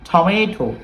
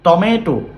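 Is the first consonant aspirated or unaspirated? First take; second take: aspirated; unaspirated. First: The first t has a puff of air. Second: The first t has no puff of air. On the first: The speaker calls it right. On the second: The speaker calls it wrong.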